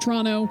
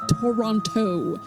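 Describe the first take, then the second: First: The T sounds are reduced, almost two syllables. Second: Every T is pronounced hard and fully. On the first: It sounds like a local saying it. The speaker calls it right. "it's two and a half syllables" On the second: It sounds like an outsider saying it. The speaker calls it wrong. "like all of the T's hard"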